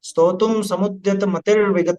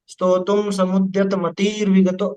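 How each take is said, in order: First: The vowel in 'mati' is kept short. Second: The vowel in 'mati' is drawn out long. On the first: The speaker calls it right. "मति में छोटा ही लेना आपने, बोलने में उसे लंबा नहीं खींचना।" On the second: The speaker calls it wrong. "अब अगर लंबा करोगे तो कैसा होगा?"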